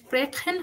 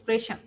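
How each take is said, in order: First: The ch is a throaty kh sound. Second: The ch is a soft sh-like sound. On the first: The speaker calls it wrong. "এটা স্প্রেখেন হবে না" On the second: The speaker calls it right. "এটা হবে স্প্রেশন। এটা শয়ের মতো হবে।"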